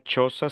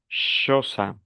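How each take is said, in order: First: It begins with a 'ch' sound. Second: It begins with an 'sh' sound. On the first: "No dijera choza" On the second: "sino choza"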